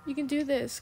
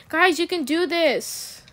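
First: Said in the usual way. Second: Loud, slow cheer for the team; rallying shout. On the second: Real, not acted. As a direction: cheer your teammates on loudly. Cheering on teammates.

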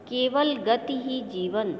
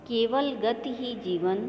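First: केवल lifted high and drawn out, slow and weighty; emphatic recitation. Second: केवल still lifted but the line moves at an even pace; lighter recitation. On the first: Teacher showing pupils how to stress the key line, slow and emphatic. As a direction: lean hard on केवल, slow the whole line. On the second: Teacher repeating the line for pupils, lighter recitation. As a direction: repeat the line easier, less weight. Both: Shown as a demonstration. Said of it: "जिस प्रकार से मैं कविता का वाचन कर रही हूँ".

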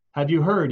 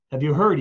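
First: Raised call to the townsfolk; man calling at a door. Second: Louder, urgent call; man crying out at the inn doors. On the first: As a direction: call out the news from the doorstep. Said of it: "he called". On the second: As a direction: cry out the news, more desperate. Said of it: "he cried". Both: Acted.

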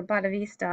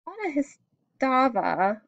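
First: Bodhisattva said as "boh-duh-VEES-tuh"; alternative pronunciation. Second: Bodhisattva attempted haltingly, starting higher; unsure pronunciation. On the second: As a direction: try Bodhisattva tentatively, feeling out the syllables. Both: Real, not acted. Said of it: "not sure if I'm pronouncing it right".

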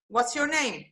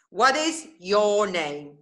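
First: Said in the usual way. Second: Slowed right down, every word spelled out; slow teaching drill. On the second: Shown as a demonstration. Teacher slowing the question down for her student, slowly.

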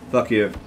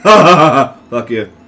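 First: Said in the usual way. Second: Louder curse through a laugh; laughing taunt. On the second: Real, not acted. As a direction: laugh it at him.

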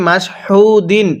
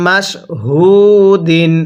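First: "হু" with a harder h, run on quicker; mistaken heavy ha. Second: "হু" as a light h from the mouth, vowel held long; correct soft ha. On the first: Teacher imitating many learners' mistake, "হু" with a hard h, not light. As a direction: say "মাস হু দিন" in one go with a heavy h in "হু". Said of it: "অনেকেই ... এরকমভাবে পড়ি". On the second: Teacher showing how it must be read, "হু" light and drawn out. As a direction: say "মাস হু দিন" word by word, "হু" soft and stretched. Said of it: "কিভাবে পড়তে হবে?". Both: Shown as a demonstration.

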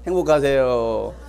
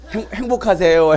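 First: Slow blessing. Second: Demo blessing. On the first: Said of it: "서로 보시고". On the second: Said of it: "해보세요". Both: Shown as a demonstration.

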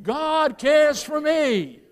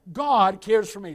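First: "God cares for me" shouted, slow and loud; shouted like you mean it. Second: Said in the usual way. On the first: Shown as a demonstration. Preacher leading the church in a shouted response, slow and loud. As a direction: belt "God cares for me" out slowly. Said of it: "Now shout it like you mean it". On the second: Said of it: "I want you to say that".

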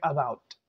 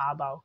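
First: "about" opening on a short uh; "about" with a light, unstressed first syllable; schwa start. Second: "about" with a long opening aa; "about" begun on open aa; full AA start. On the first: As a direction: reduce the first vowel, uh-BOUT. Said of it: "आ से नहीं बोलना है". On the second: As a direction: lean on the first vowel, AA-bout. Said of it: "हम आ से". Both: Shown as a demonstration.

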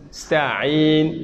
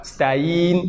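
First: Sta'in with a clear throat ayn; ayn sounded. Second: Sta'in without the ayn; flat sta'in; wrong, missing ayn. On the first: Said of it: "ayn avec ayn". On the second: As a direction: say sta'in the incorrect way. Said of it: "C'est pas sta'in". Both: Shown as a demonstration.

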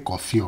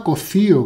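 First: Said in the usual way. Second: Cocío with the accent on the í; stress on the I. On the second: Shown as a demonstration. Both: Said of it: "con acento en la I".

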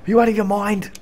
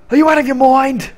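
First: Toned-down put-on voice; a hint of the cartoon outrage; milder mock disbelief. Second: High, loud put-on outrage; hammed-up disbelief; mock outraged yell. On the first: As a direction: say it again, less outraged. Second, milder take. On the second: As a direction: bellow it in a cartoon voice. Acted outburst, first take.

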